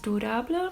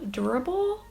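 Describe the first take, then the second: First: The name is pronounced like a French word. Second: The name is pronounced like an English word. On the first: The speaker calls it right. "the person in the store said it's durable because it's a French brand" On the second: The speaker calls it wrong. "I thought you pronounce it as"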